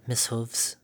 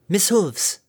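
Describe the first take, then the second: First: Nervous quiet. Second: Higher, loud call across distance. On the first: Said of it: "bit her lip nervously". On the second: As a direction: call out with strong lungs. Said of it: "Harmony called out with strong lungs". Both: A narrator's reading.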